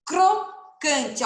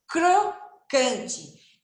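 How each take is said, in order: First: Said in the usual way. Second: Crocante com o cr bem separado e claro; crocante silabado. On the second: Shown as a demonstration. (crocante bem articulado) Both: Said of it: "Ó o som do C".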